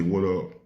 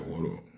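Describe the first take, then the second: First: Said in the usual way. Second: Low, soft, cold What up; a dismissive What up to an old friend; funny attitude. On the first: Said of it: "he didn't say". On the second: Retold or imitated. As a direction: mumble What up like you can't be bothered. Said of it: "Had a funny attitude, like".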